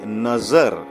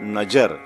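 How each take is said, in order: First: The middle consonant is a z sound. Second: The middle consonant is a j sound. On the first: The speaker calls it right. "We say nazar" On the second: The speaker calls it wrong. "not najar"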